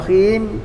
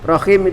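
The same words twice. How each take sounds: First: The vowel of the last syllable is long. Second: The vowel of the last syllable is short. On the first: It means the Most Merciful. "ya panjang himnya itu" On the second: It means womb. "Kalau pendek artinya sudah lain"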